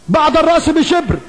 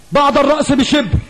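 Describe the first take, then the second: No difference in how they are said.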